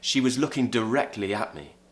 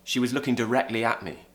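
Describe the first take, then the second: The two takes are said the same way.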